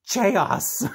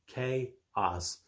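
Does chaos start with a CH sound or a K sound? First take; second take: CH sound; K sound. First: The word starts with a breathy CH sound. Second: The word starts with a plain K sound.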